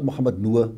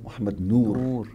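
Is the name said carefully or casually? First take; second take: casually; carefully. First: The name is said with loose, everyday pronunciation. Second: The name is said with careful, exact pronunciation. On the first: This is how most people said the name. The speaker calls it wrong. "Not Muhammad Nur" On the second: This is how the name should properly sound. The speaker calls it right. "Every name must be correctly expressed"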